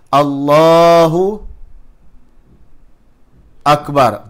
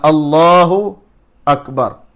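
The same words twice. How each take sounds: First: A long pause separates Allahu and Akbar. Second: A short pause separates Allahu and Akbar.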